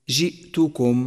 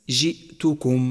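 The two takes are said the same way.

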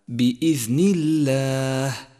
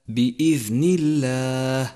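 The two takes are said the same way.

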